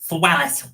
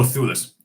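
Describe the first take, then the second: First: The name is said as 'Thwel-lis'. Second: The name is said as 'Thew-lis'. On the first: The speaker calls it wrong. "why did I pronounce that as Thwellis?" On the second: The speaker calls it right. "Oh, Thewlis"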